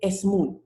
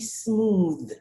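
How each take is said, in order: First: An extra vowel comes before the opening s. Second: The word starts directly with the s sound. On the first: The speaker calls it wrong. "you cannot say smooth" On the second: The speaker calls it right. "It has to be smooth"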